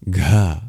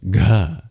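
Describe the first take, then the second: First: The consonant is released with a puff of breath. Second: The consonant is released with a puff of breath.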